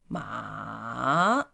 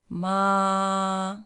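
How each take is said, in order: First: The pitch dips low and then rises. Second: The pitch stays high and level. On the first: "falling, rising. It starts from here, going down, and then up" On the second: "high flat"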